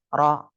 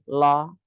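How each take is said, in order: First: The r is trilled lightly, about twice. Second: The r is replaced by an l sound. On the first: The speaker calls it right. "yang betul ro jadi bergetarnya cuma dua kali" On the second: The speaker calls it wrong. "cadel itu juga salah"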